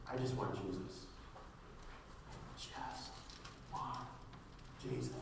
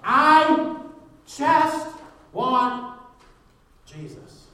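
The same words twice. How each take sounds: First: Soft, low, with long pauses between words; hushed simple plea. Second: Shouted declaration, hushed ending. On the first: Believer simply tells God what he wants, hushed. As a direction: let each word drop quietly and stand alone. Models simple prayer, word by word. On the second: Preacher rejects every other want, shouting then hushed. Climactic repeat of the prayer. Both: Acted.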